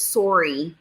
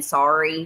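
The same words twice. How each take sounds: First: "Sorry" with a rounded first vowel, like "sore-ee"; Canadian "sorry". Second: Said in the usual way. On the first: Retold or imitated. Imitating a friend to the chat, Canadian "Sorry". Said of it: "she always says". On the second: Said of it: "instead of saying sorry".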